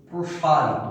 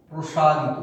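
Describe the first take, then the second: No difference in how they are said.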